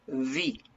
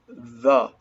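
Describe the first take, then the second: First: The vowel is a long 'ee'. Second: The vowel is a short relaxed 'uh'. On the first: The next word starts with a vowel. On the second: The next word starts with a consonant.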